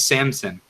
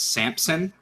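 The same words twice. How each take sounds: First: No P sound is heard before the S. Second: A P sound is heard before the S. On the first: The speaker calls it right. "there is no P in this dude's name" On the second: The speaker calls it wrong. "I hate how everyone pronounces his name as Samson"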